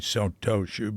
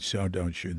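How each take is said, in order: First: The second syllable starts with a t sound. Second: The second syllable starts with a d sound. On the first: This is how many Japanese people do not say it. "They don't say Sotoshu" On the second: This is how many Japanese people say it. "A lot of Japanese say Sodoshu"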